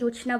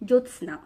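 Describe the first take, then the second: First: The word is said as 'jochhna'. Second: The word is said as 'jyotsna'. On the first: It is the form used for the needs of the poem. "এখানে কবিতার প্রয়োজনে জোছনা বলা হয়েছে" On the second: It is the standard form of the word. "ঠিক উচ্চারণটা জ্যোৎস্না"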